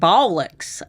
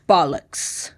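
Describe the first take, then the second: First: It is said with a southern twang. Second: It is said in a plain accent.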